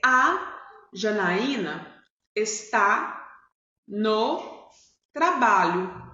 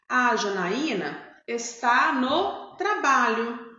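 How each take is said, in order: First: There is a pause after each word. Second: The words run together without pauses between them.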